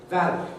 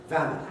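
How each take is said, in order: No difference in how they are said.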